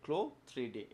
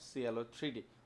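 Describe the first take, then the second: First: CLO is said as one syllable, klo. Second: CLO is spelled out letter by letter. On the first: The name is taken from the word clothes. The speaker calls it right. "উচ্চারণ হবে ক্লো three D" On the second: The name is treated as an abbreviation. The speaker calls it wrong. "Not সিএলও three D"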